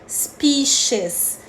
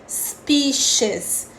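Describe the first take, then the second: The two takes are said the same way.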